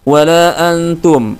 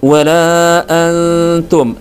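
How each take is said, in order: First: The n is said plainly without holding. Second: The n is hidden, nasal and held longer. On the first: The speaker calls it wrong. "langsung dibaca seperti itu ya" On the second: The speaker calls it right. "Harusnya ... nun sukunya atau tanwinnya dibaca dengan samar"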